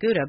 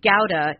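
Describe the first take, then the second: First: It is said the usual American English way. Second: It is said closer to the original Dutch. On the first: "We don't say it that way. We say Gouda" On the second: "Gouda is the closest to the actual pronunciation"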